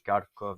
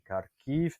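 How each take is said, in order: First: The name ends with an 'ov' sound. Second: The name ends with an 'iv' sound. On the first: This is the Russian form of the name. "la toponymie euh, russe" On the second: This is the Ukrainian form of the name. "on ukrainise euh, les noms"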